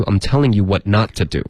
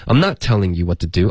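First: "not" pushed late and stressed, falling end; stress on not in what not. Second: "not" hit before "telling"; stress on not. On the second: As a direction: press on the first "not". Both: Shown as a demonstration. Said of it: "把not推到后面".

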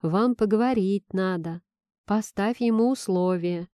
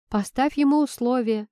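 First: Understated coaxing suggestion; soft purr. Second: Higher, resolute blurt; decisive. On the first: Friend advises the heroine to talk, soft purr. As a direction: advise with a gentle, mild purr. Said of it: "проурчала". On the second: Friend urges the heroine to set terms, decisive. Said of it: "уже решительно выпалила подруга". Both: A narrator's reading.

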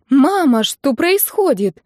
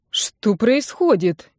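First: High, slow startled question; alarmed bride. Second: Very slow, puzzled asking; bewildered question. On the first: Bride asks her mother what happens, high alarmed. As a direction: call out to mother, lost. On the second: Confused lawyer asks what is going on, very slow bewildered. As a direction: drag it out, lost. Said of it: "ничего не понимал поверенный". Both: A narrator's reading.

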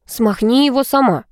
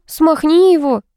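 First: Higher frightened retort; scared jock pushing back; panicky refusal. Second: High, louder exasperated command; exasperated girlfriend order; impatient order. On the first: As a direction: jock backing away scared. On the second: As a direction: girlfriend scolding jock. Vika ordering Vlad. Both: A narrator's reading.

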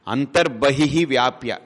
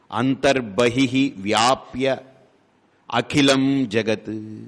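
First: అంతర్బహిః stressed, slow falling close; repeated with stress. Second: Each word drawn out slowly; slow emphatic recitation. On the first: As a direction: repeat it slowly so it sticks. (అంతర్బహిః పై ఒత్తిడితో నెమ్మదిగా) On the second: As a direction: lay the phrase down slowly and weightily. (నెమ్మదిగా ఒత్తి పలకడం) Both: Shown as a demonstration. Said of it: "ఒక్కటే గుర్తుపెట్టుకోండి".

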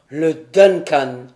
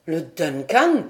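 First: Lower, slow, loud cry of dismay; loud, slow despairing cry; exclaimed in despair. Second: Said in the usual way. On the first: A narrator's reading. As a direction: cry out the ship's name in horror. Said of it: "s'écria Glenarvan". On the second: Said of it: "s'écria John".

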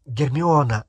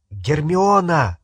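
First: Said in the usual way. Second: A called-out name, slow and a bit louder; calling out sharply; shout. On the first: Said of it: "Гермиона, остановись!". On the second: Acted. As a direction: call her name to stop her. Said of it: "крикнул Гарри".

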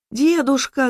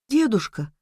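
First: High-pitched alarmed call; raised, urgent child's cry; girl's cry. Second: Hushed touch of fear; understated fright; frightened. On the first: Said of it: "закричала она". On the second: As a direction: say it as a scared little girl, restrained. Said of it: "испуганно сказала девочка". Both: A narrator's reading.

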